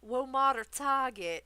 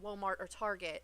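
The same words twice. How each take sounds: First: Walmart is pronounced in an exaggerated, mocking way. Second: Walmart is pronounced in a plain, ordinary way.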